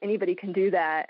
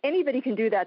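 First: It sounds dismissive and belittling. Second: It sounds warm and approving. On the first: Being open to everyone makes it worth less. The speaker calls it wrong. "it was anybody can do that, and that makes it somehow less" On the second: Being open to everyone is a good thing. The speaker calls it right. "Instead of saying anybody can do that, that's great"

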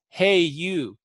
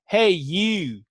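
First: It is said in a general, neutral accent. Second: It is said in a Southern American accent. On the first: "when we say hey" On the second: "especially if someone is Southern, they might say hey"

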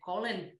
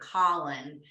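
First: It is said in an Irish accent. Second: It is said in an American accent. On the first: The speaker calls it right. "how the Irish names sound when it's spoken in its true form" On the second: The speaker calls it wrong. "as Americans, we say Colin"

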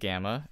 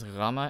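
First: It is said with the usual English pronunciation. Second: It is said with a Greek pronunciation. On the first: "usually pronounced gamma" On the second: "I pronounce them like they actually do in Greece"

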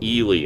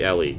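First: The name sounds like Ely. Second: The name sounds like Ellie. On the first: The speaker calls it wrong. "in the new movie, they pronounce it Ely, and that was driving me nuts" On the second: The speaker calls it right. "It's clearly Ellie"

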